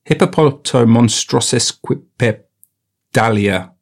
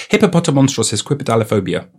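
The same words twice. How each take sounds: First: Slow, halting syllables; sounding it out. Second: Quick, in one smooth run; fluent rattle-off. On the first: Retaking the long word, halting and sounded out. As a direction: piece "hippopotamonstrosequipedalia" together slowly. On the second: Nailing the retake of a long word, fluent and quick. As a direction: rattle off "Hippopotamonstrous esquipedaliphobia" without a break. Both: Real, not acted.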